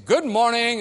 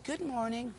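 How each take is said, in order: First: It is said loudly. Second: It is said quietly.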